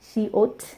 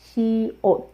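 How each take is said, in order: First: The final t ends with a puff of air. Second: The final t has no puff of air. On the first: The speaker calls it wrong. "It's not like that" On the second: The speaker calls it right. "You can hear that there is no puff of air"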